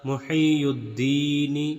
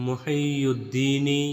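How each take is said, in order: No difference in how they are said.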